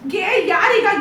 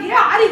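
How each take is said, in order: First: The second part begins with a 'ya' sound. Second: The second part begins with an 'aa' sound. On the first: The speaker calls it right. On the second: The speaker calls it wrong.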